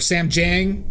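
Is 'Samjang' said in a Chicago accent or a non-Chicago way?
Chicago. It is said with a Chicago accent.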